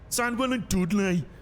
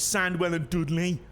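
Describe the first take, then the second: First: It is said in an exaggerated Brummie accent. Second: It is said in his ordinary accent.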